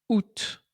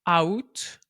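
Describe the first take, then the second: First: The word is said unlike its spelling. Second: The word is said close to its spelling. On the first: The speaker calls it right. "mais bien" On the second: The speaker calls it wrong. "on ne prononce pas"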